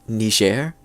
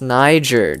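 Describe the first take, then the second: First: The word is pronounced the French way. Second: The word is pronounced the English way.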